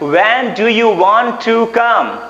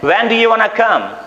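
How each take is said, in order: First: Want to is said as two full words. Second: Want to is run together into wanna. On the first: "When do you want to come के बदले" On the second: "हम क्या बोल सकते हैं?"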